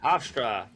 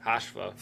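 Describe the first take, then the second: First: Hofstra higher and louder as "HOFF-strah"; corrected pronunciation. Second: Hofstra fumbled as "HOSH-va"; unsure pronunciation. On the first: Host copying co-host's correction, Hofstra said as "HOFF-strah". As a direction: land Hofstra with a full str. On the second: Host unsure of a team name, Hofstra mispronounced as "HOSH-va". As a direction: stumble over Hofstra, swallowing the t and r. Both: Real, not acted. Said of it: "I don't know how to say it".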